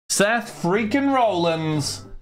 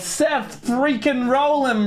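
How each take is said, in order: First: The last name ends with an s sound. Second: The last name ends without an s sound. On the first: The speaker calls it right. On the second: The speaker calls it wrong.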